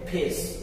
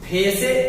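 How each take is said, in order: First: The word ends on the consonant, no vowel. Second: The word ends with an extra vowel sound. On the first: The speaker calls it right. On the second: The speaker calls it wrong.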